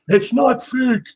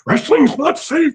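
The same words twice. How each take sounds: First: High mock shriek of an outraged mom; mother screaming. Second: Mock shrieking mom, much higher and slow; mother screaming. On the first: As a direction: squeal it in her defense of wrestling. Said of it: "scream at me". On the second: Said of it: "she'd freak out and scream at me".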